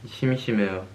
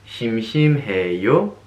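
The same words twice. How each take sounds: First: The pitch falls at the end. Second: The pitch rises at the end. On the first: It states that the speaker is bored. "And you can respond" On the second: It asks whether someone is bored. "if you just raise the tone right here, it turns into a question"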